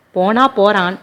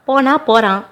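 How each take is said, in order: First: Said in the usual way. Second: போனா said high and falling; dismissive scold. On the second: A narrator's reading. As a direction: push போனா up, then let it drop. Son scolds mother.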